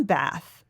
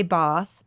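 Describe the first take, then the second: First: "Bath" with a short flat A as in "cat"; American Bath. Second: "Bath" with an open AH vowel; regional Bath. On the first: Naming the town to a cohost, "Bath" with short A. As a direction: say "Bath" to rhyme with "math". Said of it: "if you're from Bath". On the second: Showing a cohost one region's way, "Bath" with a broad AH. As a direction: say "Bath" as "bahth". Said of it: "from one place in the country, you say". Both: Shown as a demonstration.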